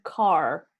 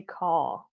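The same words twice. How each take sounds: First: Car with the final R sounded; American pronunciation. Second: Car with silent R, long open vowel; British pronunciation. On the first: Teacher showing American English, car with a clear R. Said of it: "in American English". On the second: Teacher showing British English, car without the R. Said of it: "In British". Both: Shown as a demonstration.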